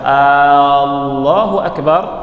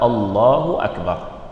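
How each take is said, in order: First: The first vowel is drawn out long. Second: The first vowel is short. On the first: It asks whether God is the greatest. The speaker calls it wrong. "Orang yang memanjangkan a" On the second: It states that God is the greatest. The speaker calls it right. "Harus dengan lafaz Allahu Akbar"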